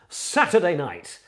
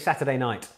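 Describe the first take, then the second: First: It is said in a mid-nineties BBC announcer voice. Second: It is said in his normal speaking voice.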